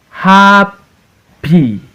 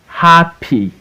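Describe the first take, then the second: First: HAP held high, pause, PY; Happy split into two separate beats; syllable by syllable. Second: Said in the usual way. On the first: Shown as a demonstration. Teacher reading for pupils to repeat, Happy broken as HAP-PY. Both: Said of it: "we are in two syllables word".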